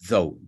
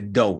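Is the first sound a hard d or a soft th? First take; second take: soft th; hard d. First: The first sound is a soft voiced th. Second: The first sound is a strong, hard d. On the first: The speaker calls it right. "sino though" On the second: The speaker calls it wrong. "Pero no es tan fuerte though"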